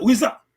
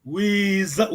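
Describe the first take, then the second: First: "Wiza" pitched up and louder with a rise at the end; rising tone. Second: Said in the usual way. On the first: Shown as a demonstration. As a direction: lift the tone on "Wiza". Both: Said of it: "quand on laisse tomber la tonalité".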